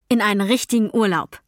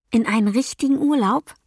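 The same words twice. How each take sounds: First: "In einen richtigen Urlaub" as a statement, falling at the end; confirming. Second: "In einen richtigen Urlaub" as a question, rising at the end. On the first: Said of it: "sagte meine Mutter". ("richtigen Urlaub" bestätigend, fallend) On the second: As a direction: ask "richtigen Urlaub" with a lifted, wondering tune. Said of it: "fragte ich". ("richtigen Urlaub" fragend angehoben) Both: A narrator's reading.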